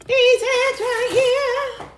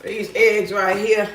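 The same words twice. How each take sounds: First: Very high, stretched-out singing; sung, playful singsong. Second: Lower, unhurried statement; low and slow. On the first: Pretend. Woman singing about her eggs while cooking, high playful singsong. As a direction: sing it slowly in a high voice. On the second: Real, not acted. Woman getting eggs out while cooking, low slow remark. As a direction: say it slowly, pitched down. Says it low before singing it.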